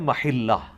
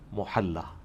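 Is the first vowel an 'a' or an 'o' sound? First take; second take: a; o. First: The word is said as 'mahilla' with 'a'. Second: The word is said as 'mohalla' with 'o'. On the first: This is the original Arabic form. "ये अरबी का लफ्ज है महिल्ला" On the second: This is the form commonly used in Urdu. "हम उर्दू में से क्या कहते हैं?"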